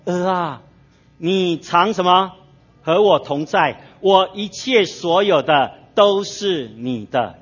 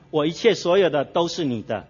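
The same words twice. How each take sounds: First: Slow, drawn-out and gentle like a loving father; father's tender words. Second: Said in the usual way. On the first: Acted. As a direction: lean in and stretch each word. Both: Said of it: "父亲跟他说".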